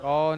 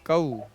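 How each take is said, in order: First: The vowel is a single flat o sound. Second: The vowel glides into an oo sound. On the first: The speaker calls it wrong. "जो कौ है ना वही मजहूल आवाज है" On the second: The speaker calls it right. "सब में ऊ लास्ट में"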